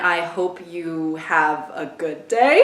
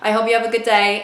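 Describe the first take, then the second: First: It is said slowly and drawn out. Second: It is said at a normal pace.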